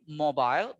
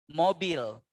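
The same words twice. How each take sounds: First: The last syllable has an 'eye' vowel. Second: The last syllable has a clear 'ee' vowel. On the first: This is the English way of saying it. "in English, maybe we can say mobile ... I" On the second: This is the Indonesian way of saying it. "But in Indonesia, you say E"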